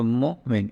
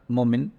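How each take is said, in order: First: "Mu'min" with a short break after Mu; "Mu'min" as two separated syllables; slight pause mid-word. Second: Said in the usual way. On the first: Shown as a demonstration. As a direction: hold back the min of "Mu'min" for a moment. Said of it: "just a slight pause and then Min". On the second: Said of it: "it's not Mu'min".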